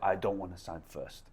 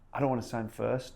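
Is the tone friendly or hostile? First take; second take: hostile; friendly. First: It is said in a hostile, harsh way. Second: It is said in a friendly, nice way.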